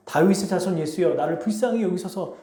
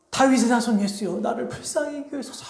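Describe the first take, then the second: First: Said in the usual way. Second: High, strained plea, volume held back; acted crying out. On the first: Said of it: "외쳐요". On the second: Blind beggar pleads with Jesus for mercy, high acted cry. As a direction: mimic a far-off cry for mercy, pitched high. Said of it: "이렇게 외칩니다".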